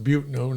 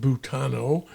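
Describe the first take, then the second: First: The name is said with two syllables. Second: The name is said with three syllables. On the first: This is how locals say it. The speaker calls it right. "locally pronounced Butno" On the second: This is how outsiders say it. The speaker calls it wrong. "not Butano"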